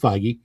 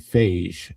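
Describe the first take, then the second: First: The surname does not rhyme with beige. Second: The surname rhymes with beige.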